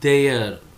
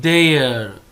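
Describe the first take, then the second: No difference in how they are said.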